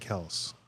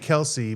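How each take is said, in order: First: The name is said with one syllable. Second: The name is said with two syllables. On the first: This is the true pronunciation. The speaker calls it right. "but it's really Kels" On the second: This is how others commonly say it. The speaker calls it wrong. "They say Kelsey"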